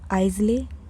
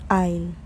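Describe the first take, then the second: First: The s sound is pronounced. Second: The s sound is silent. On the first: The speaker calls it wrong. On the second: The speaker calls it right. "The A and S are completely silent"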